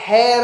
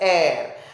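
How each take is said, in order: First: The word begins with an audible h sound. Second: The word begins with a vowel, no h. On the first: The speaker calls it wrong. "वहां पे hair नहीं बोलते हैं" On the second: The speaker calls it right. "we pronounce it as air"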